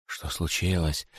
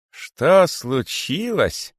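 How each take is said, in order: First: Soft, slow puzzled question; softly puzzled. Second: Slow, high, bitter repeat; unheard-of bitterness. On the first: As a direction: ask quietly, confused. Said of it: "спрашивали периферийные удавы". (периферийные удавы тихо спрашивают) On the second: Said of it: "повторил великий питон с неслыханной горечью". (великий питон повторяет с горькой обидой) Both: A narrator's reading.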